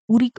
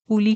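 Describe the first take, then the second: First: The middle consonant is an r sound. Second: The middle consonant is an l sound.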